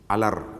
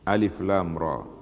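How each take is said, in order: First: The letters are merged into one word. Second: Each letter name is said separately. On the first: The speaker calls it wrong. "Ada orang baca alar ditulis gitu" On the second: The speaker calls it right. "dibaca satu-satu"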